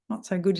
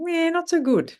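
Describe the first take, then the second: First: Said in the usual way. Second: High start on a bad-news answer; incongruously high, forced admission; pitched-up voice. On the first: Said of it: "and be honest". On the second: Shown as a demonstration. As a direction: try admitting trouble in a falsely high voice. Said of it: "You can't pitch your voice and be honest".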